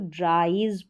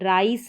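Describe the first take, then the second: First: The word ends with a buzzing z sound. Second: The word ends with a hissing s sound. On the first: The speaker calls it right. "इसको ड्राइज पढ़ेंगे" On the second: The speaker calls it wrong. "ड्राइस नहीं पढ़ेंगे"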